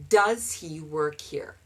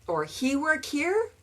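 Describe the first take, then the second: First: Said in the usual way. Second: Mock learner question, higher; learner's mistake. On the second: Shown as a demonstration. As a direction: ask it like a student forgetting does. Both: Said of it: "And that's normal".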